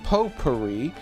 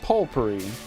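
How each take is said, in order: First: The first syllable has no L sound. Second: The first syllable has an L sound. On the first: "They're not saying potpourri" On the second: "They're putting an L in there"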